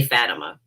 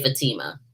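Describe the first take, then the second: First: "Fatima" stressed on the first syllable, FAT-uh-muh. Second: "Fatima" stressed in the middle, fuh-TEE-muh; second-syllable stress. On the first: Reviewer picking a way to say the film title, "Fatima" as FAT-uh-muh. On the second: Reviewer switching to the other way to say the film title, "Fatima" as fuh-TEE-muh. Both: Shown as a demonstration. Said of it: "it's either Fatima or Fatima".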